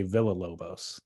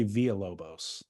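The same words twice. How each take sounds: First: Villalobos said "villa-LOH-bohs"; English "villa" at the start of Villalobos; Villalobos with hard L. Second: Villalobos said "vee-a-LOH-bohs"; Spanish-style y-glide for the double L in Villalobos; Villalobos with silent L's. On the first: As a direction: sound the double L in Villalobos as a plain L. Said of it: "But other people say Villalobos". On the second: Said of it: "I say Villalobos". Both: Shown as a demonstration.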